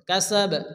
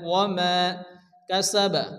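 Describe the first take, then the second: First: The word ends on an echoing, bounced b. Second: The word ends with a full final vowel. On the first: "এখানে বা সাকিন হবে এবং কলকলা হবে" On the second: "এখানে কাসাবা আছে"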